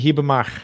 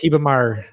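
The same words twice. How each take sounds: First: The final R is said the local way. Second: The final R is said the southern way. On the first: "here it would be" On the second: "in the south, it's"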